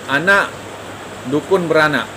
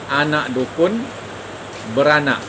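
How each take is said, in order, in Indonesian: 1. Jeda ada setelah kata pertama, anak. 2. Jeda ada setelah kata dukun. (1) "berarti yang beranak di sini adalah seorang dukun" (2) "maka yang beranak berarti anak dukun"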